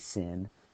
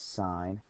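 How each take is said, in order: First: The vowel is short, as in 'pin'. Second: The vowel is long, as in 'pine'. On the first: "Some people say sin" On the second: "but we pronounce this sine"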